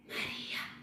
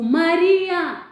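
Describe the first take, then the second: First: The name is said softly, at normal volume. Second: The name is called out loudly and forcefully.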